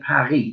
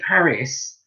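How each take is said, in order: First: The final S is silent. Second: The final S is pronounced. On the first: This is how French speakers say it. "they don't pronounce the S at the end" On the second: This is how English speakers say it. "When we say Paris"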